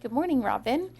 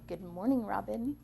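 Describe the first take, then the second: First: It is said in a friendly tone. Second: It is said in a mean tone.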